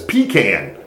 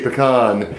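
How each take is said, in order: First: It is a country Georgia pronunciation, like 'pee-can'. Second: It is the speaker's own, non-Southern pronunciation.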